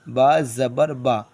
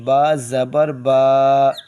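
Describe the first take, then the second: First: The syllables are said quickly, vowel kept short. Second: The syllables are said slowly, vowel drawn out. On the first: The speaker calls it right. "जल्दी" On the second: The speaker calls it wrong. "ये तो जल्दी नहीं हुआ, ये खींचना हुआ।"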